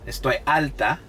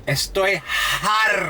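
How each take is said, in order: First: Said in the usual way. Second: "harta" with a strong breathed H at the front; slow, high "Estoy harta", hitting the H hard; added H. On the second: Retold or imitated. Imitating Dominicans for viewers, "harta" with an audible H. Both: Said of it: "They add the H".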